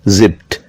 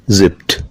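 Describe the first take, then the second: The two takes are said the same way.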